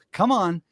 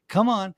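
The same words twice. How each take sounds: The two takes are said the same way.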